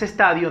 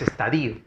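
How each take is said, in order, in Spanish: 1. El acento está en la segunda sílaba. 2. El acento no está en la segunda sílaba. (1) "fuerza de voz en la ta" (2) "no es estadio"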